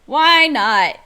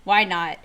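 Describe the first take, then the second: First: Louder, punchier second "Why not?"; emphatic repeat. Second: Said in the usual way. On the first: Real, not acted. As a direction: hit "Why not?" hard like a rallying cry. Repeats the rhetorical question louder.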